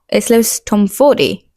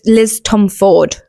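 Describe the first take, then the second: First: The surname ends with a final 'ee' sound. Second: The surname ends without a final 'ee' sound. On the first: The speaker calls it right. "the proper pronunciation of her name" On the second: The speaker calls it wrong. "I always thought it was Liz, Liz Tomforde. It's not"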